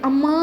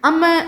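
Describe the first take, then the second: First: The final vowel is drawn out long. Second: The final vowel is short and plain. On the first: The speaker calls it right. "நல்லாயிருக்கும்" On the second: The speaker calls it wrong. "நல்லா இருக்காது"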